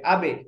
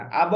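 First: "আবে" with a light e bounce; downward qalqalah. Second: "আব" bounced into a rounded o sound; wrong heavy bounce. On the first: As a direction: release the b of "আবে" into a short thin e. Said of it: "উচ্চারণ হবে নিচের দিকে". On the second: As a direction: echo the end of "আব" heavy and rounded. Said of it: "আব হবে না". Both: Shown as a demonstration.

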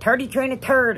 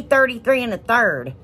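First: "Thirty-three and a third" with T in place of each th; Irish T for TH. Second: "thirty-three and a third" with clear th sounds; standard "th" sounds. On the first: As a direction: mimic an Irish friend turning "Thirty-three and a third" into "turty-tree and a turd". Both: Retold or imitated. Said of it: "he can't do it".

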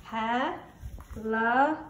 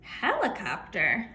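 First: Helicop- drawn out slowly, syllable by syllable; syllables split out slowly. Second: Said in the usual way. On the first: Shown as a demonstration. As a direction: stretch Helicop- beat by beat as you tap. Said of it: "here I go". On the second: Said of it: "Let's do another one".

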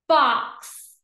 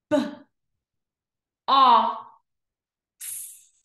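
First: BOX joined in one go; blended word. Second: B, o, x as separate letter sounds; long gaps between B, o and x; sounded out slowly. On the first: Teacher blending for pupils, BOX as one word. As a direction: say BOX whole and firmly. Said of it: "read each word fast". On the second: Teacher pointing to each dot, B-o-x sounded out. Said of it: "read each word slow". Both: Shown as a demonstration.

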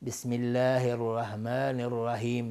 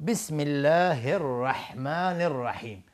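First: «الرحمن» and «الرحیم» with plain h; mispronounced basmala. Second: Slow «الرحمن» with mid-throat ḥ; correct recitation. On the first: Retold or imitated. Teacher imitates how some people say it, mispronounced. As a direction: soften the ḥ of «الرحمن» to a deep-throat h. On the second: Shown as a demonstration. Teacher models the basmala before showing errors, correct recitation. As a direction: give «الرحمن» and «الرحیم» a strong breathy ḥ.

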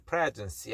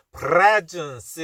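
First: Presence with just a light touch on the R; softer, understated R in presence; presence, gently said, R barely coloured; slight quaver. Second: Presence with a heavily overdone rolled R; hammed-up, too-strong R in presence; exaggerated trill. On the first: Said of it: "약간, 그래, 그런 느낌이 좀". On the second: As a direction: overdo the quavering R in presence, loud. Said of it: "이렇게 하는 건 아니고요". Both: Shown as a demonstration.

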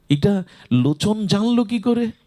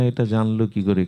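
First: High, amazed questioning; retold astonishment. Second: Said in the usual way. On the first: Mahaprabhu wonders how absent Lochan found out, acted as astonished. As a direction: lift the pitch in acted bewilderment. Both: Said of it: "অবাক হয়ে মহাপ্রভু বলছেন".

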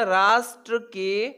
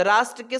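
First: "राष्ट्र के" drawn out at half speed; slow dictation. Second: Said in the usual way. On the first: Shown as a demonstration. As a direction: stretch "राष्ट्र के" out slowly for students. Teacher repeats title slowly for students. ("राष्ट्र के" को धीरे-धीरे खींचकर बोलें)

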